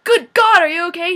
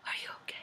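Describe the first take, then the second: First: Much louder and higher, frantic; frantic yell of concern; loud alarmed cry. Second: Breathy hushed whisper; soft unvoiced whisper. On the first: Retold or imitated. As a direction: burst out in alarm. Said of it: "He's not like". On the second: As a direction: whisper it softly, close. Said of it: "He literally whispers at her".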